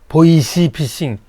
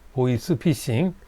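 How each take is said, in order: First: An extra 'ee' vowel follows the s in 'voice'. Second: The s in 'voice' has no 'ee' vowel after it. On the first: The speaker calls it wrong. "발음이 잘 안 돼서 보이시 피싱, 보이시 이렇게 하시는 분도 계세요" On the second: The speaker calls it right. "보이스입니다. 보이시 아니에요"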